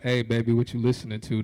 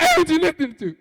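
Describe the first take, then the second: First: Low, smooth pickup line; the suave line he imagined; smooth in my head. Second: Cracks up high and loud; nervous squeaky blurt; the awkward line that actually came out; voice cracking high. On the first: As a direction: play it cool and low. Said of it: "That's what it sounded like in my head". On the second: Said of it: "when it came out". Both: Retold or imitated.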